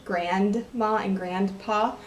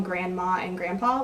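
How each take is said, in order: First: Slow, separated "grandma and grandpa", D sounded. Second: Said in the usual way. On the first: Shown as a demonstration. Vlogger distinguishing grandparents' names, D enunciated in "grandma and grandpa". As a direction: pronounce the D in "grandma and grandpa" deliberately. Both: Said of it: "like, a D".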